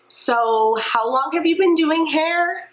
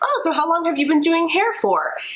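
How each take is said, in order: First: The question sounds doubtful and suspicious. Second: The question sounds genuinely curious and friendly.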